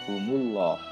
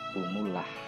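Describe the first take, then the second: First: The l in Allah is thick and heavy. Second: The l in Allah is thin and light. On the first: The speaker calls it right. "Maka harus dibaca tafkhim" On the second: The speaker calls it wrong. "Tidak boleh dibaca"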